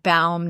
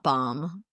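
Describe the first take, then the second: First: The vowel sounds like the one in bow. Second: The vowel sounds like the one in bomb. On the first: The speaker calls it right. "just take a bow. So it's like Baum" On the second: The speaker calls it wrong. "not bomb"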